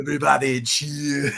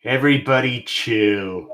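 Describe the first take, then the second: First: Villain one-liner, Austrian-tinged; Schwarzenegger impression. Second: Villain one-liner, lightly voiced; a hint of Mr. Freeze; Mr. Freeze impression. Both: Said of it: "Pretty good impression".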